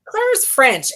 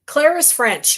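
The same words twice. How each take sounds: First: Playful Irish lilt on Claire; mock Irish accent. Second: Irish lilt, higher pitched; mock Irish accent. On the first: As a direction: keep the light Irish accent going. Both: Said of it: "and I'm speaking Irish".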